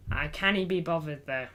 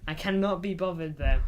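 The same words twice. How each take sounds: First: "can't" slurred into "cannae"; "can't" said as two syllables, "can-ee"; Scottish-style "cannae". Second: "cannot" said in full, louder on NOT; corrected "cannot". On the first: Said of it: "Can he?". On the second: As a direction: spell out "cannot" as two clear syllables. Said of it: "I said". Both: Real, not acted.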